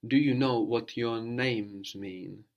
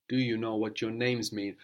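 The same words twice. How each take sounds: First: Slow prompt. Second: Said in the usual way. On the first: Shown as a demonstration. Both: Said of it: "to more than one person".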